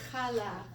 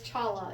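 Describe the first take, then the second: First: Challah with a throaty ch at the start; guttural ch. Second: Challah with an English sh at the start; English sh sound. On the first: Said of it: "You might have heard it as challah". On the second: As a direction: say challah as an English speaker would, with sh. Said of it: "It's not challah bread". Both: Shown as a demonstration.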